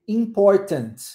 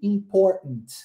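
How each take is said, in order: First: The T sound is clearly pronounced. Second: The T sound is left out. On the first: "você não omite o som do T" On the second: "você omite o som do T"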